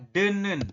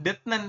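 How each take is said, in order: First: The first syllable ends with an n sound. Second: The first syllable ends with a t sound. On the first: The speaker calls it right. "Tapi dibacanya adalah denen" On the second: The speaker calls it wrong. "Jadi dibacanya bukan detnen"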